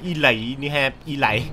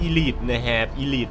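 First: Elite said as "ee-lai", rhyming with "lie"; misreading Elite. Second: Elite said as "ee-leet", ending in a short leet; correct Elite. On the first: Host misreads the game title as ee-lai. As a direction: read Elite wrongly as ee-lai, both times. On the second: Host corrects his misread title to ee-leet. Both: Shown as a demonstration. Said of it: "อ่านว่า Elite นะครับ Elite".

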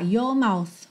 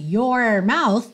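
First: "Your mouth" as yaw-mouth, R dropped; no R, linked. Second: "your mouth" with a strong curled R. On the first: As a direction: glide from "Your" into mouth without an R. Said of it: "como não tem o, a enrolada". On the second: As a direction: roll the tongue back on the R of "your mouth". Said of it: "a enrolada da língua no R". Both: Shown as a demonstration.

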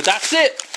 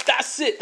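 First: Said in the usual way. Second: Same words again, much softer; softer repeat. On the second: Shown as a demonstration. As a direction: let the repeat fall away quietly. Repeats the call, dropping away.

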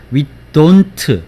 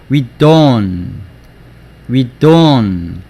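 First: "We don't" with the t released as "tɯ", "돈트"; full final t. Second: "We don't" ending on the n, like "we don"; dropped final t. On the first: Teacher repeats the citation form, "don't" with full t. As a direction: sound out the t of "don't" with a vowel after. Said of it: "발음이 안 되고". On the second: Teacher models real sentence pronunciation, "don't" without its t. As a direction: let "don't" trail on the n with no t. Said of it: "실제로는 문장 안에서는". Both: Shown as a demonstration.

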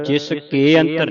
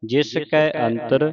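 First: Quick ਕੇ with closed "e"; wrong vowel. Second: ਕੈ with open "ai"; correct vowel. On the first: Teacher shows what not to read, wrong vowel. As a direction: say ਕੇ as "ke" in ਜਿਸ ਕੇ ਅੰਤਰ. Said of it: "ਨਹੀਂ ਪੜ੍ਹਨਾ". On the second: Teacher models the line for the class, correct vowel. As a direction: say ਕੈ as "kai" in ਜਿਸ ਕੈ ਅੰਤਰ. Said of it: "ਕੈ ਪੜ੍ਹਨਾ". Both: Shown as a demonstration.

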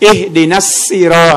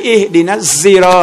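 First: อิฮดินัสซีรอ with a thin "s" sound; demonstrated variant, plain "s" in อิฮดินัสซีรอ; sad read as seen. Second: อิฮดินัสซีรอ with a buzzing "z", "ihdinaz-ziro"; demonstrated variant, "z" in อิฮดินัสซีรอ; sad read as zay. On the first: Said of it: "เสียงซอดเป็นเสียงซีน". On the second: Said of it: "เสียงซอดออกเป็นเสียงซาย". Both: Shown as a demonstration.

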